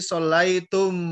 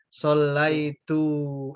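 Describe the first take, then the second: First: The word ends in tum, with a final m. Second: The word ends in tu, without a final m. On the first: "kalian tum dari antum" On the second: "orang Saudi bilangnya sholaitu. M-nya nggak bisa"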